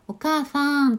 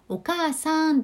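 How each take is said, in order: First: The sa sound is blurred into a fa sound. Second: The sa sound is pronounced clearly. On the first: "さあをはっきり言えなくて、お母ファンというふうな感じ" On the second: "お母さんっていうね"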